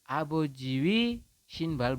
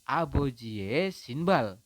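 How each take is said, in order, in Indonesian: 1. Vokal kepemilikan diucapkan sebagai 'ui'. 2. Vokal kepemilikan diucapkan sebagai 'e'. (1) "Abojiwi sinbal bukan ya" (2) "tetapi dibacanya adalah abojie sinbal"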